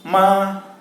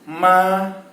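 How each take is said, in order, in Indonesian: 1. Nadanya tetap tinggi dan datar. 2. Nadanya tetap tinggi dan datar.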